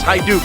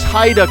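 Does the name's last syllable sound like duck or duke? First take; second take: duke; duck. First: The last syllable sounds like duke. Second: The last syllable sounds like duck. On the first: The speaker calls it right. "until I learned it's Hyduke" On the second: The speaker calls it wrong. "I always pronounced it as Hyduck as a kid"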